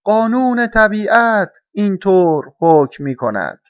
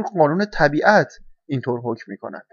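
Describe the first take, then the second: First: Loud, high, slow proclamation; solemn crow's decree, drawn out and raised; stern caw. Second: Said in the usual way. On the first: A narrator's reading. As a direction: caw out the rule gravely, word by word. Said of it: "با لحن جدی قارقار کرد".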